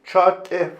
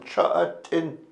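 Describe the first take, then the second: First: The final nasal sound is dropped. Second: The final nasal sound is kept. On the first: It is the informal, modern way of saying it. "informal or cha'ate ... in fast speech, the nasal ... disappears" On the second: It is the formal, older way of saying it. "formal ... the N was voiced"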